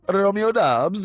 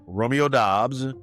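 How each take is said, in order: First: It is said in a put-on Italian accent. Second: It is said in a plain, ordinary accent.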